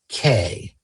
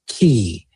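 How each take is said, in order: First: The word rhymes with "day". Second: The word rhymes with "bee". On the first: The speaker calls it wrong. "Incorrect sound" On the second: The speaker calls it right. "Correct sound"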